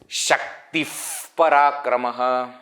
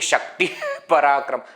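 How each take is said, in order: First: A puffed f sound comes before Parakramah. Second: An h sound comes before Parakramah. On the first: The speaker calls it right. "I am throwing the air out with f" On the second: The speaker calls it wrong. "I am not saying ... I am not using her"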